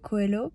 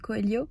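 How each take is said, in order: First: The name is pronounced with French sounds. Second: The name is pronounced with Portuguese sounds. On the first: "mais disons" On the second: "en portugais ça se dit Coelho"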